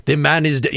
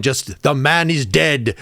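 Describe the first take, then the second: First: Said in the usual way. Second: Drawn-out South African-song lament; slow, solemn. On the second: Retold or imitated. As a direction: stretch out the man is dead slowly. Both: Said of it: "It's gonna be very slow".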